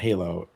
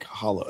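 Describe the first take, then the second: First: The first vowel sounds like the 'ay' in hay. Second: The first vowel sounds like the 'o' in ho. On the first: The speaker calls it wrong. "It's not Halo" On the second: The speaker calls it right. "it's like Holo"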